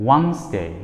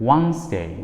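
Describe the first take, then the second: Both takes have the same delivery.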